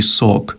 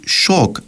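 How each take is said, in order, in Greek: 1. Η λέξη αρχίζει με ήχο 's'. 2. Η λέξη αρχίζει με ήχο 'sh'. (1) "αντί σοκ" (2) "κοινό που ακούεται προσποιητόν, είναι το να πεις σοκ"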